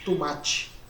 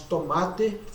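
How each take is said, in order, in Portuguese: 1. Ela é pronunciada com sotaque mineiro. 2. Ela é pronunciada com sotaque brasileiro padrão. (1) "falamos tomate" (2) "Em vez de falarmos tomate"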